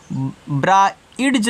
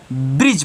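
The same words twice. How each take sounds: First: ब्राइड्ज broken up, with long "eye" vowel and a d; wrong reading. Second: ब्रिज with short i and plain j ending; silent D. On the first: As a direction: sound out ब्राइड्ज slowly as "bra-idj". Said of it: "ब्राइड्ज नहीं पढ़ोगे". (ब्राइड्ज में आइ और ड की आवाज़) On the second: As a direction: say ब्रिज with no separate d. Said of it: "ए डी क्या रहेगा". (ब्रिज में छोटी इ, ड silent) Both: Shown as a demonstration.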